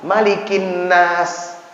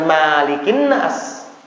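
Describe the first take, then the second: First: The first vowel of Malikin is short. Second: The first vowel of Malikin is long. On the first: The speaker calls it right. "yang benar itu adalah" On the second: The speaker calls it wrong.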